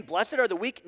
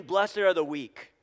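First: "Blessed are the weak" as a question, rising at the end; doubting question. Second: "Blessed are the weak" slowly, falling at the end; slow it down and drop firmly on "weak"; firm denial. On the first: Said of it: "is Jesus saying". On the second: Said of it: "No, Jesus is not saying". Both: Shown as a demonstration.

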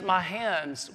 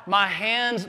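First: Faded mock cry. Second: Mock cry of pain. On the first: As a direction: let the second cry sink. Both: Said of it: "Jesus does not cry out".

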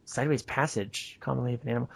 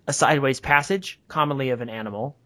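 First: Much softer, murmured repeat; quiet aside while puzzling over the text; reading to oneself. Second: Said in the usual way. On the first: Real, not acted. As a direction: mull the phrase over under your breath. Re-reads the phrase to self.

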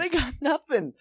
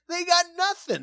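First: High, laughing through it. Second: High, jokey crook voice; burglar voice. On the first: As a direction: echo the line while laughing. Echoing the same quote. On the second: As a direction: squeak it like a bumbling crook. Quoting Home Alone burglar. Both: Retold or imitated.

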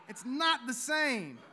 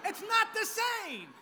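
First: Said in the usual way. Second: High comic take. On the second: Shown as a demonstration.

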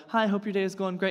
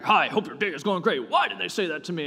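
First: Said in the usual way. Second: Loud, higher, indignant take on a friendly email; imagined mad reply to a cheerful email; suspicious, offended reading. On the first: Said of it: "you interject a tone with them". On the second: Shown as a demonstration. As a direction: reread it as if it were an insult. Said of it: "And you're, like, mad about it".

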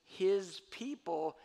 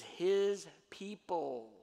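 First: "his" weighted, slow and louder; stress on his. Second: "his" leaned on, very slow; stress on his. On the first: Preacher insisting Israel is "his people", slow and weighty. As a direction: press "his" in "his people", slowly. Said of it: "this idea that Israel is". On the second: Preacher stressing "his people" to the congregation, slowly. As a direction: draw out "his people", weight on "his". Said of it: "that phrase". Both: Shown as a demonstration.

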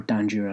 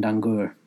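First: "Danjur" with g softened to j; alternative pronunciation of Dangour. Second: "Dangour" ending in -goor, hard g; first pronunciation of Dangour. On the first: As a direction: say "Danjur" with a soft j, as DAN-jer. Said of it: "I think it's Danjur". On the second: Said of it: "don't know which way you pronounce it". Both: Shown as a demonstration.

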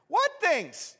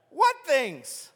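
First: High, playful innocent asking; Jesus feigning ignorance, light and high; innocent question. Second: Much higher, louder, hammed-up clueless asking; mock innocent Jesus. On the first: Acted. Jesus plays dumb with the grieving travelers, asking high and light. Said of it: "Jesus asked". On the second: Preacher mocks Jesus pretending not to know, hammed-up high voice. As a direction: play dumb, overdone for the joke.

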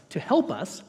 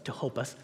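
First: "help" with a clear eh vowel, pitched up; corrected word. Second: "hope" said in place of help, low and soft; slip of the tongue. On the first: Preacher fixing his slip before first verse, "help" said clearly. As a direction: land firmly on "help" to fix the slip. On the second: Preacher introducing first verse, softly misspeaking "hope" for help. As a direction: quietly stumble into "hope" with an o vowel. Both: Real, not acted.

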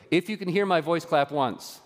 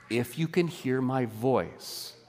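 First: Brisk classroom call to the whole room; kindergarten teacher call-out. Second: Slow and quieter, weighty and sincere; solemn, slow. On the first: Shown as a demonstration. Pastor playing a kindergarten clapping game with the congregation, brisk teacher call. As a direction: call it out like a teacher getting kids' attention. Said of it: "I'm gonna do something kindergarten style". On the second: Acted. Pastor turns the clap game into a promise of God's call, slow and solemn. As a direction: let it land gently, like a promise. Sermon point recasting the game.

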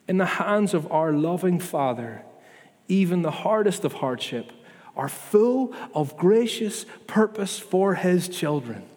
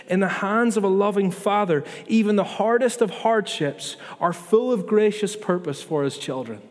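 First: Slowing right down to let each word of gracious purpose land; slow, deliberate repeat. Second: Said in the usual way. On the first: Shown as a demonstration. Pastor repeating the promise to his church, slowly and deliberately. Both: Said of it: "Can we believe that, please?".

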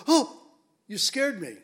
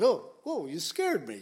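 First: Sudden loud high "Oh" of fright, then easing; imitating a startled woman at the tomb; startled cry. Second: Light raised "Oh, whoa", settling quickly; a casual everyday jump of surprise; half-playful startled apology; mild startle. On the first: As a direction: jump as if caught off guard. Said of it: "Can you imagine them going". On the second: Retold or imitated. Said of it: "You can say it to strangers".

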